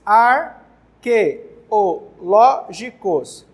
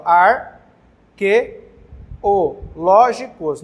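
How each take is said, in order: First: Arqueológicos split into syllables, very slowly. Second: Arqueológicos drawn out syllable by syllable, very slowly. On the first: (pronunciando arqueológicos sílaba por sílaba, bem devagar) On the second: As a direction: spell out Arqueológicos in slow syllables. (Arqueológicos dito sílaba por sílaba, bem devagar) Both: Shown as a demonstration. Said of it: "bem tranquilo a separação silábica".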